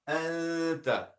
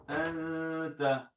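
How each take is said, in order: No difference in how they are said.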